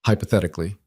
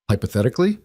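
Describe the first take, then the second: First: Hypothetically offered evenly, as a qualifier; careful HYPOTHETICALLY. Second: Hypothetically with a sharp rise at the end; questioning echo. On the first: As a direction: say Hypothetically as a measured caveat, not a challenge. Tentative reply, echoed back as question. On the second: Other character echoes word as question. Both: A narrator's reading.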